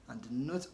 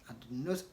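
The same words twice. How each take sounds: Both takes have the same delivery.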